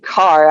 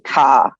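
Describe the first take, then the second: First: The word is said with the r pronounced. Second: The word is said with the r dropped.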